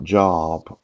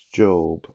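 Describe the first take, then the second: First: The vowel is short, like in 'rob'. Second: The vowel is long, like in 'robe'. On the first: The speaker calls it wrong. "a lot of us thought Job was the actual pronunciation" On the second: The speaker calls it right. "but it's Job"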